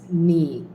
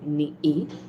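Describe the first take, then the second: First: The syllables flow together without any break. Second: There is a break between the two syllables. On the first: The speaker calls it right. "It will flow" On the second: The speaker calls it wrong. "you will not say ni e, that will sound weird"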